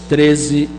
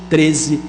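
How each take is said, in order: No difference in how they are said.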